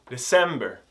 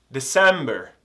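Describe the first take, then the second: The two takes are said the same way.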